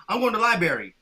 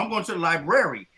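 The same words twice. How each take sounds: First: "library" said as lie-berry; "library" ending like "berry"; dropped first R. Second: "library" said as lie-brair-ee; "library" with its first R kept; both Rs sounded. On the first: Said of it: "the place where the books are". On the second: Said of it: "I know both". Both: Shown as a demonstration.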